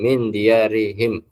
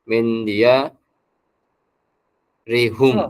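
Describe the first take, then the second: First: The final pronoun has an i vowel: him. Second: The final pronoun has a u vowel: hum. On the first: This is the usual reading after a kasra. "ketika menjadi him" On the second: This is another Quranic reading that keeps the original form. "Ada juga bacaan yang Al-Qur'an yang lain"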